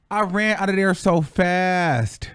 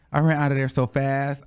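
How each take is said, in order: First: Slow, drawn-out "fast"; emphatic relief. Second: Said in the usual way. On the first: Real, not acted. Storyteller recalling leaving the cell, slow and emphatic on "fast". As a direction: stretch "fast" for dramatic weight. First, emphatic take of escape.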